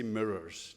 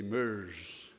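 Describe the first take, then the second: First: Said in the usual way. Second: "myrrhs" said slowly as one clipped syllable, like the spice; Scottish myrrhs. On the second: Retold or imitated. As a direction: mimic the Scottish "myrrhs" for "mirrors", drawn out. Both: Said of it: "You say myrrhs".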